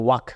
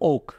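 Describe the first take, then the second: First: The vowel is an open 'ah' sound. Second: The vowel is a rounded 'aw' sound. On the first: The speaker calls it wrong. "সকলেই এই ওয়ার্ডটিকে উচ্চারণ করে ওয়াক" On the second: The speaker calls it right. "এটার সঠিক উচ্চারণ হবে ওক"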